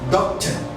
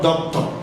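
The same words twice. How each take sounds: First: The unstressed vowel is a weak schwa. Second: The unstressed vowel is a full, clear vowel. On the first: The speaker calls it right. "This is doctor" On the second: The speaker calls it wrong. "not doctor"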